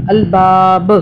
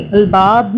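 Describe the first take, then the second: First: अलबाब with a jolted, bouncing final ब; qalqala on ba. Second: Said in the usual way. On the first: Shown as a demonstration. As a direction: snap the last ब of अलबाब with a jerk. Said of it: "हाँ, झटके से". (अलबाब के आखिरी ब पर झटके से कलकला) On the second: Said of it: "अलबाब नहीं पढ़ना".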